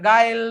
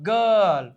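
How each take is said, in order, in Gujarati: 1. આ સ્વર ai જેવો સંભળાય છે. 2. આ સ્વર er જેવો સંભળાય છે. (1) "નકર ગાયલ નો થાય" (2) "નહીં ગર્લ"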